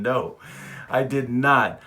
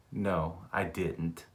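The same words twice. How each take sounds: First: Louder, deliberate no, I did not; insist, pretending to be serious; mock-firm denial with a wink. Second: Soft, slow no, I didn't; barely convincing low denial; quiet denial. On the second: Retold or imitated. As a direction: deny it half-heartedly under your breath. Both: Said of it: "I'm shaking my head, yes, but I'm saying".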